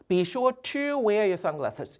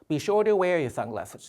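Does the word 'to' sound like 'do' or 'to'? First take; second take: to; do. First: The word 'to' is said with a clear t. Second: The word 'to' sounds like 'do'. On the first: The speaker calls it wrong. "이런 식으로 발음하지 않고요" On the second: The speaker calls it right. "to가 아니라 마치 do처럼 들리죠"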